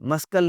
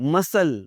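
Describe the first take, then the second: First: A k sound is said in the middle. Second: The middle c is silent. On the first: The speaker calls it wrong. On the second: The speaker calls it right.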